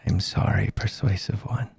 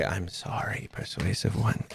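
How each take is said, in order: First: Low, soft creepy monster. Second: Quieter, low creepy monster. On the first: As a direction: purr it with quiet menace. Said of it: "I like your creepy voice". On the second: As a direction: murmur it with menace. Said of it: "You hear him say". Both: Acted.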